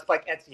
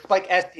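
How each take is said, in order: First: Etsy said as "ET-see", the t before the s; wrong name. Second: Esty said as "ESS-tee", stress on first syllable; correct name. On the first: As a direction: say Etsy like the shop. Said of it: "it's Spike Esty". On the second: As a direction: say Esty with the s before the t. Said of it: "not Spike Etsy". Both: Shown as a demonstration.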